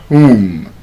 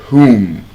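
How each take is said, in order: Both takes have the same delivery.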